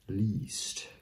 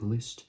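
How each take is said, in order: First: The vowel is long, as in 'least'. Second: The vowel is short, as in 'list'. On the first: "it's actually pronounced least" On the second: "I know it looks like List"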